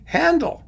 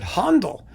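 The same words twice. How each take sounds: First: The first vowel is a plain English 'a'. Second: The first vowel sounds like German 'ä'. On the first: "in English, it's just a regular A without any diacriticals" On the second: "some people would like to pronounce it Handel"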